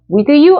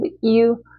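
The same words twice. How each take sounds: First: The word 'with' is said in full. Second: The word 'with' is reduced to a weak sound. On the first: The speaker calls it wrong. "아니고" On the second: The speaker calls it right. "with는 with, 어, 아니면 u, 이 정도만 하실 거예요"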